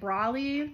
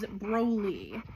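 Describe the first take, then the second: First: The first vowel sounds like 'aw'. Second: The first vowel sounds like 'oh'. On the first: This is how many people say it, from the anime. "a lot of people might pronounce it Brawly" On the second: This is the name the dog was given. "I was told his name is Broly"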